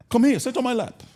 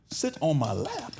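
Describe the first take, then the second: First: High, loud imitation of Dad's accent; father's accent. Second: Slow, higher-pitched disbelieving question; incredulous echo. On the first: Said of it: "that, that accent is fly". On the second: Retold or imitated. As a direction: repeat it slowly as a baffled question. Repeats father's order in disbelief.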